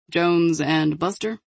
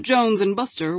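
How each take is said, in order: First: Slow, puzzled echoing question; confused. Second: Said in the usual way. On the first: A narrator's reading. Agent hearing unfamiliar names from a colleague, confused. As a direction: repeat the names slowly, rising in confusion.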